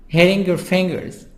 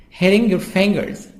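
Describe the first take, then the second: Both takes have the same delivery.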